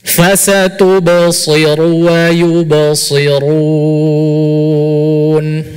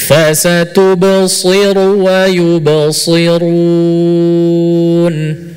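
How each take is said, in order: Both takes have the same delivery.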